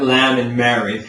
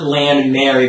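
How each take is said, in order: First: LAMB and MARY with tall open vowels; lower, rounded vowels in lamb and Mary; full singer's vowels. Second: LAMB and MARY with spread everyday vowels; "lam" and "mare-ee", American speech vowels; wrong wide vowels. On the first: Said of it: "but lamb and Mary". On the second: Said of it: "you know, not lamb and Mary". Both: Shown as a demonstration.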